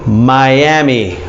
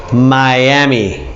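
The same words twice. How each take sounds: The two takes are said the same way.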